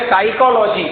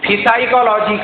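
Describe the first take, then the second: First: The word begins directly with an s sound. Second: The word begins with an audible p sound. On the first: The speaker calls it right. "वो पी लिखने में आता है, मगर पढ़ने में आता है क्या? नहीं आता।" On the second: The speaker calls it wrong. "अब फिसाइकोलॉजी क्या होता है?"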